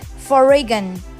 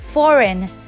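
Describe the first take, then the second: First: The g sound is pronounced in the word. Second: The g sound is not pronounced at all. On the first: The speaker calls it wrong. "I'm just kidding" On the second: The speaker calls it right. "G is silent in this word"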